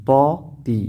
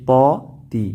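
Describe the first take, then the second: The two takes are said the same way.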